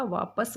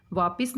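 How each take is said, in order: First: वापस with a short a in the second syllable, vaa-pas, said slowly; correct form. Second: वापिस with an i sound in the second syllable, vaa-pis; wrong form. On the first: Teacher modelling the right form for students: वापस with a short a. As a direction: say वापस with a neutral a, no i. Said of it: "वापस होता है". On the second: Teacher showing students the wrong form: वापिस with an i in the middle. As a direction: put a clear i in the middle of वापिस. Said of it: "नहीं होता". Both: Shown as a demonstration.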